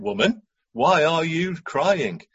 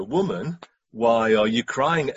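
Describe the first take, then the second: First: Slow, drawn-out condescending question. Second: Said in the usual way. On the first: Acted. Angels questioning Mary at the empty tomb, condescending. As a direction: talk down to her, stretching the words. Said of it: "It's got a ring of condescension". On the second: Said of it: "The angels ask her".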